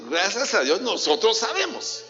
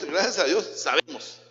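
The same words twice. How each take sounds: First: Higher, proud emphatic repeat. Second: Said in the usual way. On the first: Shown as a demonstration. Preacher repeats for the congregation, higher and emphatic. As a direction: say it again with conviction. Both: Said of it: "Voy a repetir".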